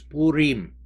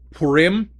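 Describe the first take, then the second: First: It is said with the Hebrew pronunciation. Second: It is said with an American English pronunciation. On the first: The speaker calls it right. "but the actual pronunciation in Hebrew is" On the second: The speaker calls it wrong. "Sometimes it's pronounced among American Christians as"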